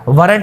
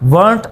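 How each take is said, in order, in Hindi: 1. यह शब्द दो अक्षरों में बोला जाता है। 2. यह शब्द एक अक्षर में बोला जाता है।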